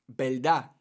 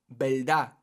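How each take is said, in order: Both takes have the same delivery.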